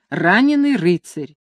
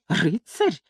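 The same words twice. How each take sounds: First: Said in the usual way. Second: Softer, contemptuous echo of Рыцарь; scornful snort. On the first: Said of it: "пылко воскликнула". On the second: A narrator's reading. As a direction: sneer the word Рыцарь as a question. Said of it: "фыркнул Гонзага".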